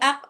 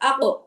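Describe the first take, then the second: First: The final q is sounded once, clipped short. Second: The final q bounces with an echo. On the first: The speaker calls it wrong. "তাহলে একবার উচ্চারণ হয়েছে, দুইবার উচ্চারণ হয়নি।" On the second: The speaker calls it right. "সেটা দুইবার আসবে।"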